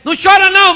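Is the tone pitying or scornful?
scornful. It is said in a harsh, scornful tone. The listener's grief is dismissed as weakness. "Ele poderia falar também assim"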